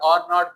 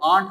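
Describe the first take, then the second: First: It is said as two full separate words. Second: It is said as one contracted syllable. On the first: "आर नॉट को" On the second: "आंट हमने पढ़ना है"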